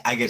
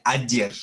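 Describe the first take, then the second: First: Ager said "A-gher"; wrong pronunciation. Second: Ayer said "A-dyer", g as y; ayer, stressed first syllable, y sound; correct Latin pronunciation. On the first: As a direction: misread ager with a hard g. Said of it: "pero no se pronuncia ager". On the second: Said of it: "se pronuncia ayer". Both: Shown as a demonstration.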